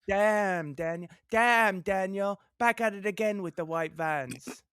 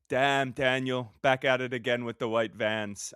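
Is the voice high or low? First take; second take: high; low. First: It is said in a high voice. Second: It is said in a low voice.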